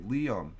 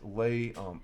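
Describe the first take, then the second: First: The first syllable sounds like 'lee'. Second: The first syllable sounds like 'lay'. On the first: The speaker calls it right. "It's pronounced Liam" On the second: The speaker calls it wrong. "I'm always pronouncing it as lay um"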